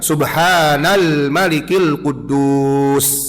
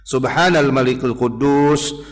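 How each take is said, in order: First: It is said louder and drawn out. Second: It is said at normal loudness and length.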